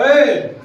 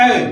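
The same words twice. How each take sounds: First: ए held long and louder, like calling out; prolonged call. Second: Said in the usual way. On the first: Shown as a demonstration. Teacher shows class how a call lengthens ए. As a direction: stretch ए into a call. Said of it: "बोलते हैं कि नहीं बोलते हैं". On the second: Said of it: "लेकिन ऐसा नहीं कहते".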